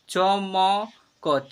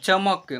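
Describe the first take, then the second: First: "चमक" slowly as च, म, क, each vowel held; letter by letter. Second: Said in the usual way. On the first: Shown as a demonstration. Teacher sounding out "चमक" for learners, letter by letter. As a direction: sound out "चमक" in three separate syllables. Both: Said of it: "ऐसे पढ़ेंगे".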